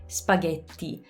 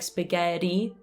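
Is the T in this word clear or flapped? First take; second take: clear; flapped. First: The T is a clear stop. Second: The T is a quick flap. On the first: The speaker calls it right. "we always have the regular T" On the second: The speaker calls it wrong. "We use the flap T in English, like spaghetti"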